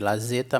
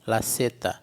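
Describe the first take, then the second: First: The consonant in zeta sounds like z. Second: The consonant in zeta sounds like s. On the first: The speaker calls it wrong. "Se escreve lazeta" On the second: The speaker calls it right. "mas se lê laceta"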